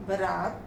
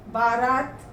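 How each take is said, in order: First: Said in the usual way. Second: Long first vowel in बारात; misspelt form. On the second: Shown as a demonstration. Teacher reads the error list, misspelt बारात with long "baa". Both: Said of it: "मात्रा संबंधी अशुद्धियाँ दी गई".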